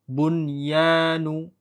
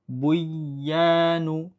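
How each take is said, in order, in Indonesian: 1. Bunyi n diucapkan dengan jelas sebelum y. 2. Bunyi n menyatu dengan y yang mengikutinya. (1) "Nunnya jelas" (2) "Idgham masuk ke ya"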